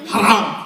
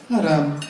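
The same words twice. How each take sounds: First: It sounds serious and strongly disapproving. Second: It sounds mild and casually dismissive.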